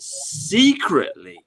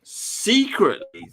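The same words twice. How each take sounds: First: Secretly stretched long and slow, stressing the hidden feeling; drawn-out secretly. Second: "secretly" again, slow and pitched higher, leaning on it; higher secretly repeated. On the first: Host to listeners, slowly drawing out "secretly". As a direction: linger on "secretly" as if letting them in on it. Stressing what they think in private. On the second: Host to listeners, repeating "secretly" higher and slower. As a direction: lift "secretly" up and stretch it the second time. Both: Acted.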